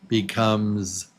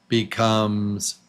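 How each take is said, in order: The two takes are said the same way.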